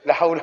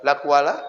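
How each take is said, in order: First: The second word starts with an H sound. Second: The second word starts with a K sound.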